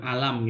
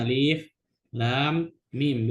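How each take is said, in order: First: The letters are run together as one word. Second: Each letter name is spoken separately. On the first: The speaker calls it wrong. "bukan alam gitu" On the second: The speaker calls it right. "Cara bacanya makanya Alif Lam Mim"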